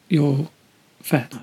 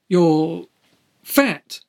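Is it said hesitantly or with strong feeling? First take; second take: hesitantly; strong feeling. First: It is said hesitantly, without much feeling. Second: It is said with strong feeling.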